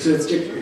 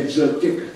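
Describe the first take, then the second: First: "Zutik" said clearly with a retroflex t; "Zutik" with the tongue curled back on the t; Zutik pronunciation. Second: "Zutik" with a retroflex t; Zutik pronunciation. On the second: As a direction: curl the tongue back on the t of "Zutik". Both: Shown as a demonstration. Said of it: "say Zutik".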